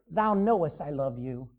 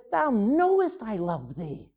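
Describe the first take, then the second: First: Said in the usual way. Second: A touch of weary exasperation, slow; mildly exasperated. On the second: Retold or imitated. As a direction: let it sag out, tired of being asked. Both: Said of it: "Peter was exasperated".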